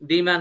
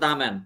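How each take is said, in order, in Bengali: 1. এটি দীর্ঘ স্বরে 'thee'-র মতো শোনায়। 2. এটি ছোট স্বরে 'thuh'-র মতো শোনায়।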